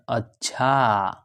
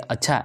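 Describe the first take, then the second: First: The word is drawn out, thoughtful. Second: The word is short, not thoughtful.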